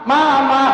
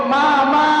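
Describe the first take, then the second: No difference in how they are said.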